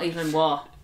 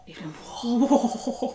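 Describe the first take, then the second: First: The name is said in a plain voice. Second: The name is said in a posh voice. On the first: The speaker calls it wrong. "not Evelyn Waugh" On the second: The speaker calls it right. "Like that"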